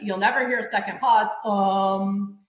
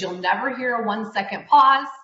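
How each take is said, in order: First: A drawn-out 'um' filler follows the phrase. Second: A silent one-second pause follows the phrase. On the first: The speaker calls it wrong. "you're hearing the um, right?" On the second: The speaker calls it right. "So I just had a one second pause"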